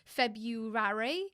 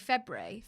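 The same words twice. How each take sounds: First: The word is pronounced fully, as it is spelled. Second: The word is pronounced in a reduced form, not as spelled. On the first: "I think you say it how it's spelled" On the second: "but I, say"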